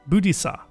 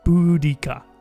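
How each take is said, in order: First: The middle consonant is an s sound. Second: The middle consonant is a k sound. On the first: The speaker calls it wrong. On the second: The speaker calls it right.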